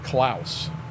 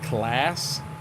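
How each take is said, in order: First: The vowel sounds like the 'ow' in 'house'. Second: The vowel sounds like the 'a' in 'class'. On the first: This is how people locally have always said it. "we've always called it Klaus" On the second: This is how others, such as the maker, say it. "they call it class"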